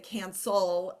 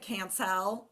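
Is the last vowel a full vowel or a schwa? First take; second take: schwa; full vowel. First: The second vowel is reduced to a schwa. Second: The second vowel is a full vowel. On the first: The speaker calls it right. "We say" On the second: The speaker calls it wrong. "we don't say"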